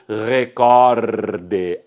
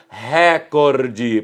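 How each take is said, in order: First: The stress is on the second syllable. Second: The stress is on the first syllable. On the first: The speaker calls it right. "Assim é que se deve pronunciar" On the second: The speaker calls it wrong. "se houvesse o acento agudo, a pronúncia seria recorde"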